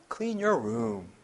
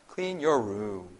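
No difference in how they are said.

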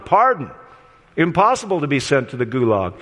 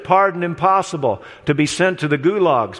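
First: The pause comes after the word pardon. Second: The pause comes after the word impossible.

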